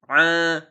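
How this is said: The sound resonates through the nose. The speaker calls it wrong. "kalau masih hidung kita bergetar, berarti itu masih dalam keadaan salah"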